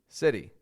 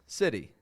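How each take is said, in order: First: The middle T is a quick flap, like r. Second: The same.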